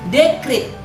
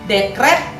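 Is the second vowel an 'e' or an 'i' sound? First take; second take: i; e. First: The second syllable has an 'i' vowel. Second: The second syllable has an 'e' vowel. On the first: This is the non-standard form. The speaker calls it wrong. "Dekrit ada I-nya, termasuk kata tidak baku ya" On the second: This is the standard form. The speaker calls it right. "Dekret pakai E, dekret itu kata baku"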